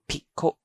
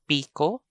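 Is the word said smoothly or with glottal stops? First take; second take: glottal stops; smoothly. First: Each vowel is cut off by a glottal stop. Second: The vowels flow with no glottal stops. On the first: It means folded or bent. "So there are two stops there" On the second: It names a gardening hoe. "No stops at all. There is no stop there at all"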